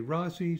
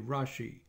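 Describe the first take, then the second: First: The middle consonant is a plain s sound. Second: The middle consonant is an sh sound. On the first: "with an S sound" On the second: "or an SH"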